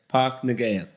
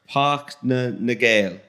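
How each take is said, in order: First: No extra sound comes before 'Nagale'. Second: An extra 'na' sound comes before 'Nagale'. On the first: The speaker calls it right. "So you don't pronounce the middle bit" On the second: The speaker calls it wrong. "I have not a Scooby Doo on how you say his name"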